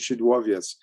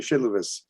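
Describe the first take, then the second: First: The name is said the Polish way. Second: The name is said the Yiddish way. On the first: This is the official local form of the name. The speaker calls it right. "but it's actually Shidwovietz" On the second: The speaker calls it wrong.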